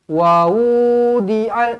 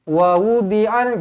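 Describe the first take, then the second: First: Some vowels are drawn out long. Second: All the vowels are kept short. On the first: The speaker calls it wrong. "jangan wa wudi'al, ah tak boleh" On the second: The speaker calls it right. "Semuanya pendek"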